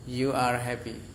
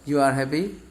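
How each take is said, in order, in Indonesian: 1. Itu diucapkan dengan intonasi pernyataan biasa. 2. Itu diucapkan dengan intonasi bertanya. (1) "kalau memang bukan bertanya ya biasa" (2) "hanya dengan nada bertanya"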